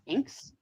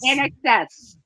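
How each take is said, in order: First: The name is said as one syllable. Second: The name is said as three syllables.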